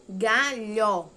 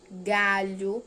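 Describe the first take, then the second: First: "Galho" loud, split as "ga-lhó"; final sound isolated. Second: Said in the usual way. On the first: Shown as a demonstration. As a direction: stress an open "lhó" at the end of "Galho". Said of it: "Outro som". ("Galho" bem forte, separado em "ga-lhó") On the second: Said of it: "Leia estas outras palavras".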